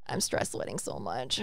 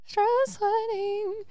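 First: Low, breathy laugh through the words; laughing confession. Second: High, slow, drawn-out mock repeat; exaggerated repeat. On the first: Real, not acted. Admitting nerves to her cohost, laughing low. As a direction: giggle it out, embarrassed. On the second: Repeating her confession to the cohost, high and slow. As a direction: stretch it out high for comic effect.

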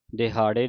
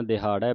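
First: ਦਿਹਾੜੇ said with a plain e ending as the wrong way; ਦਿਹਾੜੇ as the common error; wrong pronunciation demo. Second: ਦਿਹਾੜਾ said with a long a ending; ਦਿਹਾੜਾ as taught; correct pronunciation. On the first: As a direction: show the mistake ਦਿਹਾੜੇ with an e sound. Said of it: "ਦਿਹਾੜੇ ਨਹੀਂ ਪੜ੍ਹਨਾ". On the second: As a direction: model the right form ਦਿਹਾੜਾ with a clear final a. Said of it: "ਦਿਹਾੜਾ ਪੜ੍ਹਨਾ". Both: Shown as a demonstration.

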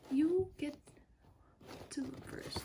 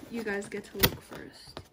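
First: Hushed teasing whisper; whispered tease. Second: Said in the usual way. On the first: Acted. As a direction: breathe it like a secret. Teasing viewers before reveal.

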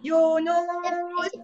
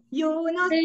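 First: Name stretched very slowly; drawn-out call. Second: Said in the usual way. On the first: Real, not acted. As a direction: call the name out long and slow. Teacher calling child to answer.

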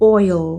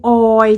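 First: "oil" as OY-ul with final L; "oil" with the L sounded at the end; English oil. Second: "oil" as a drawn-out "oy", no L; "oil" with the final L missing; Thai-style oil. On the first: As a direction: say "oil" falling into a dark L. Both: Shown as a demonstration. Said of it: "บ่แม่น oil จังสิเดะ".

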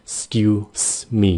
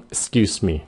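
First: Drawn-out "s'kyu-s, me"; syllable by syllable. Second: Brisk, joined-up "'scuse me"; quick and compact. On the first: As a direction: EXCUSE as "skyu", hiss, then ME. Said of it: "cái xong rồi me". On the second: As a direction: EXCUSE ME run together as "'scuseme". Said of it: "Nói nhanh gọn". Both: Shown as a demonstration.

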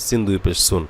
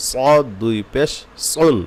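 First: Said in the usual way. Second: Slow, "সুন" with a thick s, as "sawn"; heavy sad. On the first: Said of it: "সিন স্বাভাবিকভাবে আমাদের হয়ে যায়". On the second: Shown as a demonstration. Teacher showing the letter must be thick, slow heavy "সুন". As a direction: fill the mouth on "সদ" and "সুন". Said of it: "সদ মোটা হবে".

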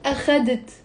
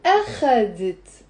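First: أخذت stressed on the middle syllable خَ; wrong take, أخذت said as a-KHA-det; stress on second syllable. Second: Corrected take, أخذت said as A-kha-det; stress on first syllable. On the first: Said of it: "The stress is on the خ". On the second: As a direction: lean long on the A of أخذت. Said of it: "the first one was on the أ". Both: Shown as a demonstration.

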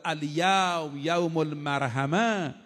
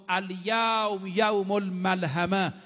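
First: «المرحمه» said slowly with a clear R, ol-mar-ha-ma; drawn out «المرحمه», ra before the ha, slow; al-marhama with ra. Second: «الملحمه» said slowly with a clear L, ol-mal-ha-ma; drawn out «الملحمه», lam before the ha, slow; al-malhama with lam. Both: Shown as a demonstration. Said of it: "ملحمه با مرحمه یه را و لام فرقشه".

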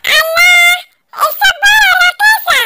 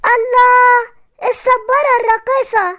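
First: High, squeaky toy echo; dancing cactus toy, pitched way up; talking cactus toy. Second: Said in the usual way. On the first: Acted. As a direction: parrot it back in a high, loud toy voice. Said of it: "الصبارة ردت عليا".

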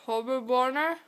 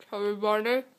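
First: Barely able to say it, mouth packed; mumbled through eleven marshmallows; cheeks stuffed full. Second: Mumbled through packed cheeks; cheeks stuffed full. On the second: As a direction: mouth full, words mushed. Chubby bunny with many marshmallows. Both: Real, not acted.

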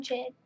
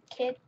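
First: "Chid" said with a ch sound at the start instead of k; slip of the tongue. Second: Said in the usual way. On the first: Real, not acted. Calling the kid in a pizza game, a tongue slip. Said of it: "but I said Chid". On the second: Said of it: "I meant to say".

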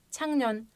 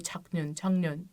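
First: Çaknön, n ile n kaynaşarak akıcı okunur; çaknön doğru okunuşla, akıcı; correct reading. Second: Çaknön, n ve n ayrı ayrı zorlanarak söylenir; çaknön diye tek tek heceleyerek, yanlış okuyuş; wrong reading. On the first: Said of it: "hangukmal böyle çıkıyor". (Çaknön, doğru telaffuz örneği) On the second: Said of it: "Ne kadar zor". (Çaknön, yanlış okunuşu gösteren sessiz deneme) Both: Shown as a demonstration.

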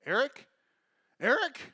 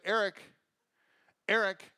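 First: Rising, louder worried call; mock mom calling out, pitch climbing; up an octave. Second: Lightly voiced mom calling out. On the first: Mom looking for her lost son, high rising call. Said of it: "her voice kinda went up an octave". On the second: Mom turns around looking for her son, mild calling. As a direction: call the child's name, first try. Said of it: "she's like".

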